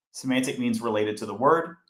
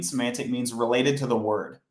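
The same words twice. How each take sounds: First: "word" lifted with a rising tune; rising repeat. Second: "related" stressed, "word" falling at the end; falling statement. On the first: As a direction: repeat it and rise on "word" as if checking they follow. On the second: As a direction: say it flat and final, landing down on "word". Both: Shown as a demonstration.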